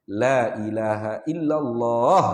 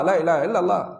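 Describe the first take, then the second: First: The long vowel in Allah is held long. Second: The long vowel in Allah is cut short. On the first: The speaker calls it right. "itu sepatutnya" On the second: The speaker calls it wrong. "Dihilangkan mak pada Allah kan?"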